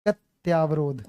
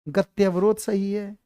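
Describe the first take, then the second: First: गत्यावरोध with long aa, falling as a trap; wrong form गत्यावरोध, lower and falling; wrong form offered. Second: गत्यवरोध said slowly, each syllable clear; teacher slowly sounding out गत्यवरोध; slow spelling demo. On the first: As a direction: present गत्यावरोध as the wrong spelling. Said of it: "अगर मैं तुम्हें दूं". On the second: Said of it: "तो अब समझ में ऐसा समझो". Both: Shown as a demonstration.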